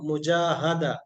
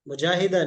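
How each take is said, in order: First: The vowel after the long a is a. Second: The vowel after the long a is i. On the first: The speaker calls it right. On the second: The speaker calls it wrong. "मुजाहिदा नहीं"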